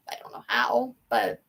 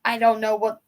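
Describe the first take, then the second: First: Whisper. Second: Said in the usual way. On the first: Real, not acted. Musing on the stable's future, whispered. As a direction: drop to an unvoiced whisper. Trailing thought, second time whispered.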